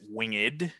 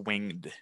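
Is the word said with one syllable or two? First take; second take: two; one. First: The word has two syllables, ending wing-ed. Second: The word has one syllable, ending wingd. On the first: The accent mark gives the ending its own syllable. "By putting that accent there, he makes it winged" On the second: This is the ordinary modern pronunciation. "as we would say in more modern English"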